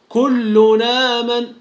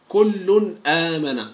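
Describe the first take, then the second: First: The n runs straight into the next vowel, with no stop. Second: The n is clear, then a glottal stop begins the next word. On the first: This follows the transfer rule of a particular reading tradition. "في رواية ورش عن نافع من طريق الأزرق يقرأ هكذا" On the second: This follows the general rule for clear pronunciation. "فالقاعدة تقول أننا نظهر التنوين إذا جاء بعده الهمز"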